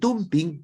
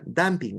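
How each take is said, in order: First: The word is read exactly as it is spelled. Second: The word is said with English pronunciation. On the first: This is how the word is written. "se escribe dumping" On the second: This is how the word is actually pronounced. "pero se pronuncia dumping"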